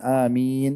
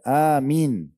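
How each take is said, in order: First: The vowel after the m is long. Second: The vowel after the m is short. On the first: "tadi kan amin agak panjang" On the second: "mimnya dengan ya seperti satu kesatuan, dipendekkan"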